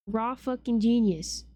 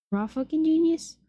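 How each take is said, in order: First: Said in the usual way. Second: "Raw fucking genius?" asked higher and louder in disbelief; incredulous repeat. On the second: Real, not acted. Streamer repeating a rude annotation to chat, high and incredulous. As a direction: throw it back up high, can't believe it. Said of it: "They're being mean".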